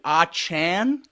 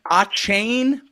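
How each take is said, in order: First: The second syllable rhymes with 'man'. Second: The second syllable rhymes with 'rain'. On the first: This is how the name was said after halftime. "he changed it to" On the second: This is how the name was said before the game.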